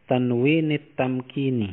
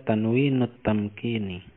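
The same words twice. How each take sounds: First: "tanwinit tamkini" with an i linking the words. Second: "tanwinut tamkini" with a u linking the words. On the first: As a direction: say "tanwinit", short i before the final t. (baca "tanwinit" dengan bunyi i) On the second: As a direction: say "tanwinut", short u before the final t. (baca "tanwinut" dengan bunyi u) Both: Shown as a demonstration. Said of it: "atau kita baca".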